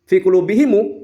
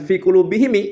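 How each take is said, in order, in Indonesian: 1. Vokal setelah m itu u. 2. Vokal setelah m itu i. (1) "mimnya dibaca dhammah" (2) "mimnya dibaca kasrah"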